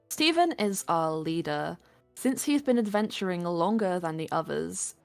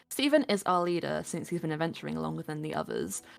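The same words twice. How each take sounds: First: It falls and breaks after 'leader', two sentences. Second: It flows without a break after 'leader', one sentence. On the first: The speaker calls it wrong. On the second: The speaker calls it right.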